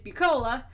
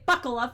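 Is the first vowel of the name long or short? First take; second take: long; short. First: The first vowel is a long U sound. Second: The first vowel is a short 'uh' sound. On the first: The speaker calls it right. "at least yours got pronounced correctly" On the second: The speaker calls it wrong. "they say Buckla for the rect of my life"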